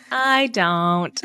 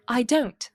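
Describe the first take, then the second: First: Drawn-out plain American accent. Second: Posh British accent, pitched up. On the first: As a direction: say it the ordinary American way. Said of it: "Meanwhile, we're like". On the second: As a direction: say it like a posh Brit. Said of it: "how much more posh it sounds like". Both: Shown as a demonstration.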